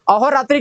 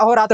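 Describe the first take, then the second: First: अहोरात्रि ending in tri; final i form. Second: अहोरात्र ending in bare tra; corrected, no i. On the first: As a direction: close अहोरात्रि on an i. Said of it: "का क्या हो जाता है". (अहोरात्रि, अंत में इ) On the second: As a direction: say अहोरात्र without a final i. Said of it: "हो जाएगा". (अहोरात्र, अंत में बिना इ) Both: Shown as a demonstration.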